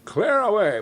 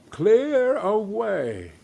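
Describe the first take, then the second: First: Higher, louder order; hearty call. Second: Slow, drawn-out Clear away!; echoed order. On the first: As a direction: call it out to the lads. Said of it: "cried old Fezziwig". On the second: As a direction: stretch Clear away! out with relish. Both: A narrator's reading.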